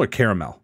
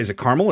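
First: "caramel" in three syllables, first like "care". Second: "caramel" squeezed into two syllables, KAR-mul. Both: Shown as a demonstration. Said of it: "is it caramel or caramel?".

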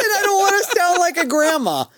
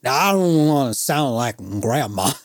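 First: High, loud, laughing delivery; amused repeat. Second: Put-on drunk fan. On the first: Real, not acted. Storyteller confirming an absurd quote to co-host, real high laughing voice. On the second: Drunk fan excusing his own nagging, imitated slur. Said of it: "X amount of drinks".

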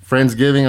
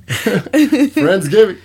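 First: Said in the usual way. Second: High, slow accusing Friendsgiving; drawn-out accusation. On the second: Real, not acted. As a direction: stretch it out in mock blame.

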